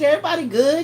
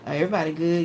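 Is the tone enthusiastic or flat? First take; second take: enthusiastic; flat. First: It is said with lively, excited enthusiasm. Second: It is said flatly, without enthusiasm. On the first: The speaker is genuinely glad to share. The speaker calls it right. "Why you couldn't say it with the same enthusiasm that I had?" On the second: The speaker is holding something back. The speaker calls it wrong. "I can hear it in the tone of your voice when you be like"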